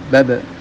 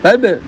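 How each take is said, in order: First: The bouncing b sound is light and short. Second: The bouncing b sound is strongly exaggerated. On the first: The speaker calls it right. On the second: The speaker calls it wrong.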